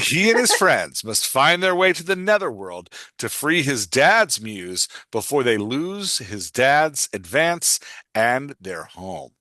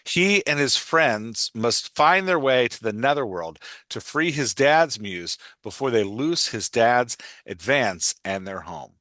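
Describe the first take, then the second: First: It is read in a heroic movie-trailer voice. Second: It is read in his normal voice.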